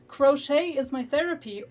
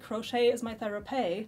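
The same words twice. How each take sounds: First: The phrase is pronounced in the normal way. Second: The phrase is pronounced in an odd, silly way.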